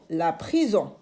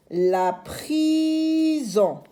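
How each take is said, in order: First: Said in the usual way. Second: Prison much higher and slow, Z buzzed; stretched z sound. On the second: Shown as a demonstration. Teacher models the word slowly.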